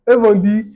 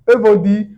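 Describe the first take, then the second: The two takes are said the same way.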